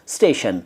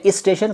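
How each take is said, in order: First: Station starts directly with no extra sound. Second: An extra 'is' sound comes before station. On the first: The speaker calls it right. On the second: The speaker calls it wrong. "कुछ लोग कहते हैं इस स्टेशन, बिल्कुल गलत हैं दोनों"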